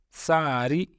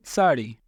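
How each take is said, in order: First: सारी drawn out slowly with a plain r; Arabic-style सारी. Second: Said in the usual way. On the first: Shown as a demonstration. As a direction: stretch सारी, tapping a simple r. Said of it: "री का इस्तेमाल होता है". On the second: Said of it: "अरबी में री नहीं होता है".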